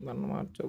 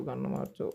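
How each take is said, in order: First: Urgent whisper. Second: Said in the usual way. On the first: Real, not acted. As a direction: hiss it under your breath. Urging a gun switch mid-fight. (గుసగుసగా)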